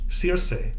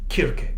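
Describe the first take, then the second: First: The name is said in a British pronunciation. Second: The name is said in a Greek pronunciation. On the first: "in British English Circe" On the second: "if we go back to the Greek pronunciation"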